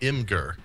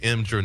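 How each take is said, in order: First: The G is hard, as in go. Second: The G is soft, sounding like a J. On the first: The speaker calls it wrong. "not Imgur" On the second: The speaker calls it right. "is supposed to be Imgur, which is also using the soft G sound"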